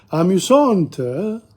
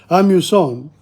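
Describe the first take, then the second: First: Amusante said slowly with a clear t; feminine form. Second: Amusant ends in a nasal vowel; amusant, nasal on the last vowel, no t; nasal ending. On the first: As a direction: stretch out amusante, sounding the final t. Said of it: "But in, in the feminine". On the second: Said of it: "You use the nasal one". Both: Shown as a demonstration.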